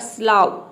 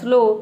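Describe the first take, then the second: First: The vowel is pronounced like 'ow' in cow. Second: The vowel is pronounced like 'oh' in go. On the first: The speaker calls it wrong. "पहले आप रखेंगे आओ को" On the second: The speaker calls it right. "फिर आपने रखा ओ"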